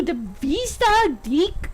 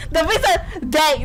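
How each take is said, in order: First: "deck" said like "dick" in a mock Scottish accent. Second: Said in the usual way. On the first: Bride names the ship's deck, "deck" accented to sound like "dick". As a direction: narrow the vowel of "deck" to a short "ih". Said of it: "It's just her accent". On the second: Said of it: "that's what she said".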